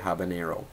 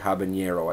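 First: The middle consonant is a plain n. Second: The middle consonant is an ny sound. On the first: It follows the name of the city it comes from. The speaker calls it right. "I say habanero" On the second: It wrongly treats the word as having a tilde. The speaker calls it wrong. "I do not say habanero"

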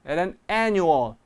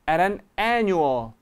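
The two takes are said the same way.

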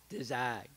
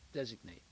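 First: The stress falls on the second syllable. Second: The stress falls on the first syllable. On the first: The speaker calls it wrong. "you put the accent on the second syllable" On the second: The speaker calls it right. "But in English, you put it on the first syllable"

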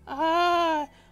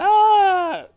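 First: It is said in a deeper voice. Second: It is said in a higher voice.

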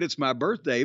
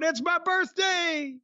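First: It is said casually, in passing. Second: It is announced excitedly and loudly.

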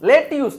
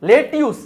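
First: The second syllable sounds like 'tyus'. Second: The same.

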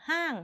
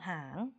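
First: The syllable is said with a falling tone. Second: The syllable is said with a rising tone. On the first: "เติมโทก็เสียงโท" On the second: "ไม่มีรูปเลยเป็นเสียงจัตวา"

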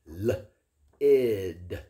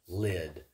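First: The sounds are split apart with breaks. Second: The sounds are blended into one smooth word.

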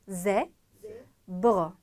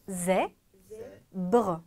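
Both takes have the same delivery.

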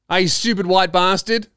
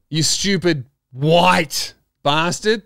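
First: 'White' is said casually, as a mere description. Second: 'White' is said pointedly, as an insult.

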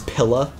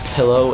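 First: The word ends with a reduced 'uh' vowel. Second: The word ends with a clear 'oh' vowel. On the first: "Midwestern accents. And my grandmother pronounces pillow as pilla" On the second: "my grandmother pronounces pillow as"

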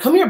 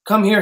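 First: The pitch moves up and down musically. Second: The pitch stays flat and level throughout. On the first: It is affectionate talk like speaking to a pet or baby. "hear all those notes, listen to the difference" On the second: It sounds mechanical and unemotional. "I'm robotic"

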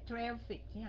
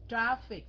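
First: The first vowel is said with a narrower mouth. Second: The first vowel is said with a wide-open mouth. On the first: The speaker calls it wrong. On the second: The speaker calls it right.

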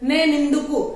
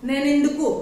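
No difference in how they are said.

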